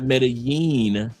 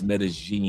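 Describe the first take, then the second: First: The double L does not sound like a soft G. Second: The double L sounds like a soft G. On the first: The speaker calls it wrong. "It's not Medellin" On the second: The speaker calls it right. "Two L's make a G sound. ... in Colombia, it's Medellin"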